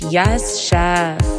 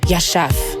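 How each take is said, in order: First: It is said emphatically, really going off. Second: It is said short and curt.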